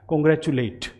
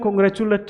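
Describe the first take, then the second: First: The last syllable ends with an 'ate' sound. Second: The last syllable ends with a weak 'uht' sound. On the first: The speaker calls it right. "वो एट बोला जाएगा" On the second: The speaker calls it wrong. "इसे मैं कॉन्ग्रेचुलेट नहीं बोलूँगा"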